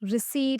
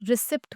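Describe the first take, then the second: First: The p sound is silent. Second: The p sound is pronounced. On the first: The speaker calls it right. "रिसीट होता है" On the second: The speaker calls it wrong. "रिसिप्ट बोलते हैं"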